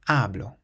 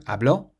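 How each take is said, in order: First: The stress is on the first syllable. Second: The stress is on the last syllable. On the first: I speak. "the emphasis is placed on the syllable before last" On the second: He spoke. "has an accent on the O"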